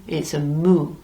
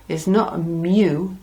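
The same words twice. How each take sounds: First: "mu" as a clean moo, no y sound; pure Spanish mu. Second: "mu" said as English myoo with a y glide; English mew, the wrong way. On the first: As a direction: say "mu" like a cow's moo. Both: Shown as a demonstration. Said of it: "you have a mu like a cow".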